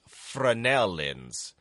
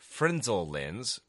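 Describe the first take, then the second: First: The word is said in a French-like way. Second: The word is said in an English-style way. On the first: The speaker calls it right. "The correct pronunciation is more like French" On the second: The speaker calls it wrong. "And I say Frenzel lens"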